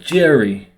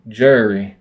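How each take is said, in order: First: It is said with a New York accent. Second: It is said with a slurred Southern accent.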